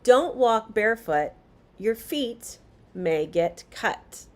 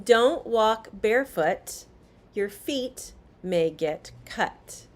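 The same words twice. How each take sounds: No difference in how they are said.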